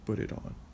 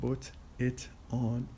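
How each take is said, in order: First: The words run together as one word. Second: Each word is said separately. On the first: "just as a single word" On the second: "Instead of saying put it on"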